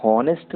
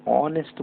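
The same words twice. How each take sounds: First: हॉनेस्ट with a sounded h, shown as the wrong way; हॉनेस्ट, breathe out an h before the ऑ; wrong h in honest. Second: ऑनेस्ट with no h, the right way; ऑनेस्ट, start straight on the open ऑ; silent h in honest. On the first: Teacher showing the class the wrong way to say हॉनेस्ट. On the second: Teacher showing the class the right way to say ऑनेस्ट. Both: Shown as a demonstration. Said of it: "हॉनेस्ट नहीं बोलते हैं".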